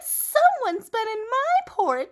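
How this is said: It is said in a Baby Bear voice.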